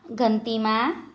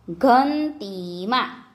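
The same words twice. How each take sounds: First: Said in the usual way. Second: ઘંટીમાં slowly, syllable by syllable; slow word demonstration. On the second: Shown as a demonstration. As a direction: stretch out ઘંટીમાં for learners. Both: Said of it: "જોડણી પર ધ્યાન આપજો".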